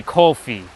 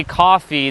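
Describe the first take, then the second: First: "coffee" with a long oh, like KOH-fee; Brooklyn-style "coffee", COH-fee; Brooklyn pronunciation. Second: Said in the usual way. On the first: Shown as a demonstration. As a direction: say "coffee" the Brooklyn way, first vowel rounded to oh. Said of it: "they say". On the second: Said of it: "the same way I say it".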